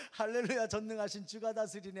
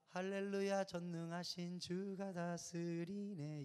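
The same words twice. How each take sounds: First: Louder sung hymn line. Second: Slow sung line. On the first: Pastor sings the hymn again, louder. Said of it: "하는데". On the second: Pastor recalls the hymn, slowly sung. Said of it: "이 노래 부를 때". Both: Retold or imitated.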